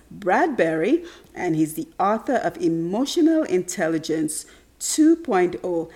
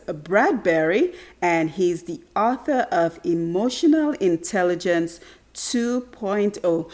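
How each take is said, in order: Both takes have the same delivery.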